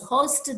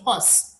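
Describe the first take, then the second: First: The final t sound is pronounced. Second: The final t sound is dropped.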